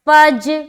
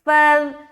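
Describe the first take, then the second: First: The consonant is a hard 'j' sound. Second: The consonant is a soft 'dh' sound. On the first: The speaker calls it wrong. "दूसरी सूरत में आप जीम अदा कर रहे" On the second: The speaker calls it right. "फ़ाज़ाल ज़बर फ़ज़"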